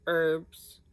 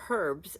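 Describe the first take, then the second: First: It is said in the speaker's usual American way. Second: It is said the way British speakers say it.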